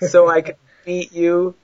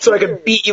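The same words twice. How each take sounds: First: The phrase is said slowly and drawn out. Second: The phrase is said at a normal pace.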